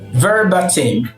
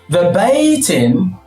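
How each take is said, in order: First: The middle syllable has a short 'ba' vowel. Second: The middle syllable has a 'bay' diphthong. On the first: The speaker calls it wrong. "I've always pronounced this as ba" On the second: The speaker calls it right. "the sound here is bay"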